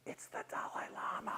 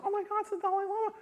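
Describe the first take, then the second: First: Appalled whisper; very soft, voiceless aside; hushed realization. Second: High, quick panicked realization; acted-out rush of horror; horrified. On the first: Retold or imitated. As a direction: whisper it as the blunder sinks in. Dawning horrified realization, hushed. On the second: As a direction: squeal it in mock horror. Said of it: "I was horrified".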